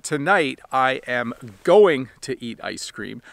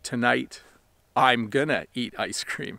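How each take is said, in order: First: Going to is said fully as two words. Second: Going to is squeezed into one word, gonna. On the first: "I could say that" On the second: "the reduced form would be"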